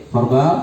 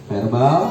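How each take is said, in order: No difference in how they are said.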